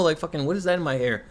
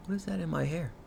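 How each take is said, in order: First: Said in the usual way. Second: Much softer, almost to herself; a quiet, bemused aside; puzzled undertone. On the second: Real, not acted. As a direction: mutter it while picking at your hair.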